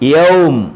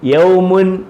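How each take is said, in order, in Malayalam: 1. ഈ വാക്ക് വെറും അവസാന m-ൽ നിൽക്കുന്നു. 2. ഈ വാക്ക് അവസാനം -un എന്ന അന്ത്യത്തോടെ അവസാനിക്കുന്നു. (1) "പറയേണ്ടത് യൗം" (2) "എഴുതിയേക്കുന്ന യൗമുൻ"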